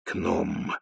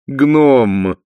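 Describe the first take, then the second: First: Wheezed aside. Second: Loud, high, drawn-out correction; gushing duchess. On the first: Vimes quietly correcting his wife, wheezy. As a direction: wheeze it under your breath. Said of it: "просипел Ваймс". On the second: Sibyl taking her husband's correction, gushing duchess voice. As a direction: sing out the word grandly. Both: A narrator's reading.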